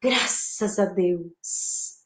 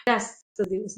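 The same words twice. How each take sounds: First: Low, slow, soft gratitude; deeply grateful, hushed and slow; thankful. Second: Low, soft sigh of relief; spent, relieved murmur. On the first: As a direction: breathe out thanks, drawn out and low. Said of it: "Posso agradecer". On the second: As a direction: let it sink out, quiet and relieved. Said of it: "com alívio". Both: Shown as a demonstration.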